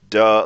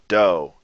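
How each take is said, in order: First: The word is said at normal speed. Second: The word is said slowly and drawn out.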